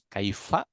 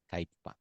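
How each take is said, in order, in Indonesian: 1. Huruf tengah itu bunyi f. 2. Huruf tengah itu bunyi p.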